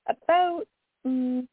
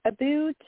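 First: Canadian vowel in "about", pitch jumping up on it; Canadian "about", said high and unguarded; Canadian accent. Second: Playful Canadian "about" stretched toward "aboot", pitch higher; hammed-up Canadian "about" sounding like "aboot"; mock Canadian aboot. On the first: Real, not acted. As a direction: let your own Canadian "about" slip out. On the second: Shown as a demonstration. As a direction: lean into the Canadian "aboot" on purpose. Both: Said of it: "hear my Canadian accent there".

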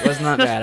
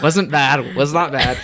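First: Laughing. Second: "not" in "Was not bad" stressed high. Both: Real, not acted. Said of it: "auto-tune".

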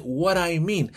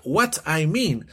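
First: "what I mean" run together as "wara-i-mean" with a flapped t; teacher shows the right American way, linked; American linking. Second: "what I mean" said slowly with what and I kept apart, a hard t; teacher shows the wrong way, slow and separated. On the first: "what I" blended into "wara" before mean. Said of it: "se dice". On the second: "what I mean" with each word said apart, slowly. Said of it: "Pero no se pronuncia "what I mean". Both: Shown as a demonstration.

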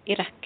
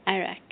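First: "Iraq" as i-RA, Spanish vowels. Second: "Iraq" as a-RAH, English style. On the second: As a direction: say "Iraq" the American way. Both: Shown as a demonstration. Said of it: "Spanish then English".

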